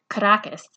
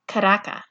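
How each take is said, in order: First: The final s sound is pronounced. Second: The final s sound is dropped. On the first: The speaker is an outsider. "Only outsiders call it Caracas" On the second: The speaker is a local. "Insiders pronounce it Caraca"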